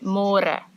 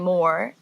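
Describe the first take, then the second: First: It is said with a rolled, trilled r. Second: It is said like English 'more', without a rolled r. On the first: The speaker calls it right. "This one has a r like before. ... say more" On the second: The speaker calls it wrong. "in English it's spelled like more. So don't say more"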